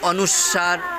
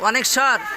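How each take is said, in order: First: It sounds like 'onushar', one word. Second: It sounds like 'onek shor', two separate words. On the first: The speaker calls it right. "শুদ্ধ করে বলুন।" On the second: The speaker calls it wrong. "এগুলো ভুল পড়া।"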